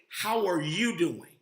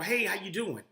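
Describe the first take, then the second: First: It sounds like a sincere, caring question. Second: It sounds like a casual, routine greeting.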